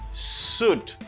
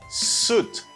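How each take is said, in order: Both takes have the same delivery.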